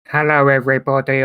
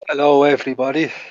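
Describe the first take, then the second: First: It is said in a flat, monotone voice. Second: It is said in a lively, varied voice.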